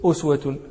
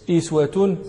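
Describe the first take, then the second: First: أسوة with initial u and full ending, "uswatun"; damma on the hamza. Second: إسوة with initial i and full ending, "iswatun"; kasra on the hamza. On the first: Teacher shows Asim's reading, أسوة as "uswatun" with initial u. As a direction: say أسوة as "us-wa-tun", starting on a short u. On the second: Teacher shows the Quran readings, إسوة as "iswatun" with initial i. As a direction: say إسوة as "is-wa-tun", starting on a short i. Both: Shown as a demonstration. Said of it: "لم يقرأ بضم الهمزة إلا عاصم".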